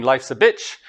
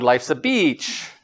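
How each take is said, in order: First: Bitch short and clipped with a rising end; short vowel in bitch. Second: Beach slow and drawn out, falling; long vowel in beach. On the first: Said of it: "How do we make that distinction". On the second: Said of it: "Bitch is shorter than beach". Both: Shown as a demonstration.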